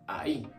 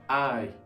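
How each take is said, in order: First: The stress falls on the final sound. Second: The stress falls on the first sound. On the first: "The emphasis for this word is at the end" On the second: "this one is having it at the beginning"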